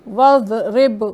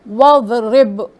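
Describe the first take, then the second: Both takes have the same delivery.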